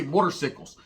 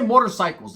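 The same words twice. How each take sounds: First: "motorcycles" said as "motor-sickles"; mocking "motor-sickles" for "motorcycles". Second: Said in the usual way. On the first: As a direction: say "motorcycles" with "cycles" rhyming with pickles. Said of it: "They say motorcycles". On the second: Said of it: "They don't say motorcycles".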